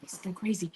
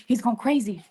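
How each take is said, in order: First: Hushed unvoiced aside; whisper. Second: Said in the usual way. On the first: Real, not acted. Streamer whispering to chat while the dog goes wild. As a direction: whisper it so the dog won't hear.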